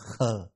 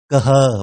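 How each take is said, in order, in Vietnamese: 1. Hai chữ được ghép lại thành một âm duy nhất. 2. Hai chữ được đọc thành hai âm tiết riêng biệt. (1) "mà đọc là khơ" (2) "không đọc là cơ hơ"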